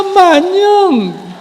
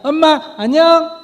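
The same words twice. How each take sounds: First: It sounds sad and pitiful, ending low. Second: It sounds cheerful and light, ending high.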